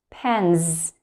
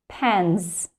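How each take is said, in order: Both takes have the same delivery.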